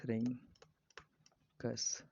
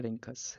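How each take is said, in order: First: रिंकस in two parts with a long gap; slow dictation. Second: Said in the usual way. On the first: Shown as a demonstration. Teacher repeats end of platypus name for students, very slowly. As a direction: split रिंकस before its last syllable.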